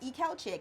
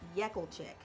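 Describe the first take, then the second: First: The name begins with a plain vowel. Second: The name begins with a y sound. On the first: This is the adopted pronunciation. "I kind of started pronouncing it Ekelchik" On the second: This is the family's original pronunciation. "It's actually pronounced Yekelchik"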